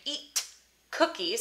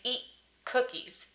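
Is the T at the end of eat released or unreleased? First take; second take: released; unreleased. First: The T is released with a puff of air. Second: The T is held without any audible release. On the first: "I'm not saying eat cookies" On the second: "I'm saying eat cookies"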